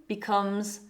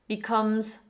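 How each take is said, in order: No difference in how they are said.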